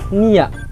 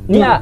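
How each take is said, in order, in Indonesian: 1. Nama "Nia" itu dibaca dua suku kata, ni-ya. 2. Nama "Nia" itu dibaca satu suku kata, nya. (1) "Tapi Nia. Jadi pakainya adalah Nia" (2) "bukan Nia"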